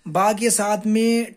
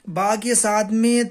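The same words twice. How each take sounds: The two takes are said the same way.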